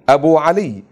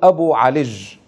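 First: The name ends in a y sound. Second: The name ends in a j sound. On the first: This is the standard form. "بدلا من" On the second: This is the dialect form. "العجعجة"

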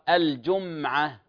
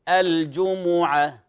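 First: The middle consonant has no vowel after it. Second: The middle consonant carries a u vowel. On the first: The speaker calls it wrong. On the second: The speaker calls it right.

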